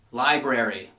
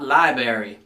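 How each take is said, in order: First: Library said LAI-brer-ee, both r's; library with the r after b; correct pronunciation. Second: Library said LAI-ber-ee, dropping the first r; library without the r after b; wrong pronunciation. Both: Shown as a demonstration. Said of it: "not library".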